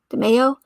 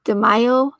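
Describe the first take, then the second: First: DeMaio with middle syllable like "may"; alternative pronunciation attempt. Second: DeMaio with middle syllable like "my"; first pronunciation attempt. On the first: Streamer second-guessing an examiner's surname, DeMaio said "duh-MAY-oh". Trying two readings of a surname. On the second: Streamer trying out an examiner's surname, DeMaio said "duh-MY-oh". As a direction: say DeMaio as "duh-MY-oh", tentatively rising. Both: Real, not acted.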